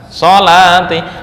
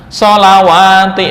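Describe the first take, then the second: First: The word is said with no w sound. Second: The word is said with a w sound. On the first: The speaker calls it right. "Sholat juga sama" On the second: The speaker calls it wrong. "ah, enggak"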